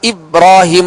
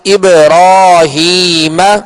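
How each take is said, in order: First: The b sound is plain, with no echoing bounce. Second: The b sound has an echoing bounce. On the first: The speaker calls it wrong. "इसको इब्राहीम नहीं" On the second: The speaker calls it right. "बल्कि इब्राहीम जी कलकला करके पढ़ेंगे"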